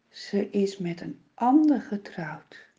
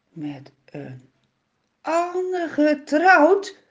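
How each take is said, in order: First: Frightened father whispering the news; trembling whisper. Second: Higher, slow stunned echo; shocked disbelief. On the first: Father whispers to Simson, shaking with fright. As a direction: breathe it out, scared to tell him. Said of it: "Hij trilt van schrik". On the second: Simson repeats the father's news in higher, slow disbelief. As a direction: Simson can't believe his ears. Simson hears wife is remarried. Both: A narrator's reading.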